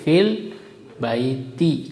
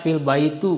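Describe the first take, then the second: First: The last word ends with an i vowel. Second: The last word ends without an i vowel. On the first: The speaker calls it right. "Tapi fil baiti kasroh" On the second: The speaker calls it wrong. "Tidak boleh dibaca fil baitu, nggak boleh"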